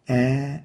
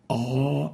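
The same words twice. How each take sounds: First: The vowel is light and thin, like 'a'. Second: The vowel is heavy and dark, like 'o'. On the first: The speaker calls it right. "A is right here" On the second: The speaker calls it wrong. "A is wrong"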